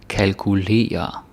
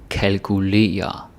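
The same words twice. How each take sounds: Both takes have the same delivery.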